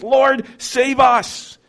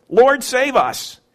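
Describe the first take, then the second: First: Pleading disciple. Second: Slow, earnest plea; pleading disciple. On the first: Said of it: "That's faith talking". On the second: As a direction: call out to the Lord in trust. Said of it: "And then fear". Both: Acted.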